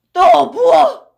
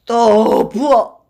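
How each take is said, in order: First: High, loud snapped order; shouting for more. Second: Slow, loud drawn-out demand; calling for more. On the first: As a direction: bark it at the pourer. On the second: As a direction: stretch the order out, satisfied. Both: Acted. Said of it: "라고 외쳤다".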